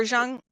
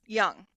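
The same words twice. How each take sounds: First: "Jung" said with a soft zh sound, like "Zhung". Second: "Jung." said as "Yung" with a Y sound. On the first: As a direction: say "Jung" starting with zh. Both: Real, not acted. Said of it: "see, I did it again".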